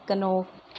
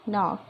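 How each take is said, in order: First: The k at the start is sounded. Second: The k at the start is silent. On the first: The speaker calls it wrong. "नहीं बोलते हैं" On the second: The speaker calls it right. "मेरे साथ repeat कीजिए"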